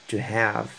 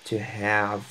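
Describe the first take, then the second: Both takes have the same delivery.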